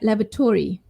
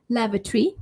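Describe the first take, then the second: First: The 'tory' part carries clear stress. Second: The 'tory' part is reduced and unstressed. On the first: "So Tory there" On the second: "lavatory in British English"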